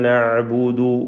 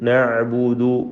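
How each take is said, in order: No difference in how they are said.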